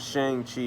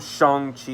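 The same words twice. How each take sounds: First: The name is said the older way. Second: The name is said the newer way. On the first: This is the pronunciation everyone used before the movie. The speaker calls it right. "that's how everybody always pronounced it" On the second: This is the pronunciation promoted with the movie. The speaker calls it wrong. "I'm not gonna call him"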